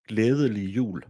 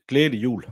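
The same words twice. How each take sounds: First: The phrase is said with its sounds in full. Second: The phrase is said with many sounds dropped. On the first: This is how people elsewhere in the country say it. "they they probably call it" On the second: This is how people in the speaker's home region say it. "Where I'm from, ... we take off half the letters"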